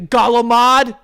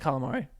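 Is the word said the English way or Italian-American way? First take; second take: Italian-American; English. First: The word is said with an Italian-American pronunciation. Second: The word is said with a plain English pronunciation. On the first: The speaker would feel like a phony saying it. "But I won't be like, yeah, can I get the galamad?" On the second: The speaker avoids sounding like a phony. "I say calamari because I don't want to be looked at as a phony"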